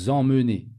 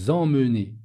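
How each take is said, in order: Both takes have the same delivery.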